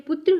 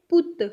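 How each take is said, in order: First: पुत्र with a clear tr cluster at the end; Hindi pronunciation. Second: पुत ending on a bare t, no r; Punjabi pronunciation. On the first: Teacher showing learners the Hindi word for son, Hindi pronunciation. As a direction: say पुत्र the Hindi way, r sounded after t. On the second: Teacher showing learners the Punjabi word for son, Punjabi pronunciation. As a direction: say पुत short, dropping the Hindi r. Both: Shown as a demonstration. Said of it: "थोड़ा tone में फ़र्क है".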